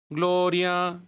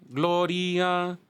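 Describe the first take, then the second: Both takes have the same delivery.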